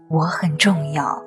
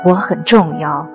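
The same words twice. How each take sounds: First: It is said quietly, in a soft voice. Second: It is said a little louder than before. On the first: The speaker is not yet used to declaring it. "我对自己小声说" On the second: The speaker is growing more confident. "声音放大了一点"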